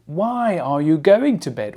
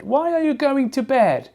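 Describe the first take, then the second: First: Said in the usual way. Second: High-pitched question. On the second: Shown as a demonstration. Teacher posing the question about bedtime, high-pitched. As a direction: ask it much higher, pitch held up on WHY ARE YOU GOING.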